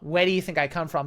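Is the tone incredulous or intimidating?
incredulous. It sounds incredulous, as if asking are you stupid.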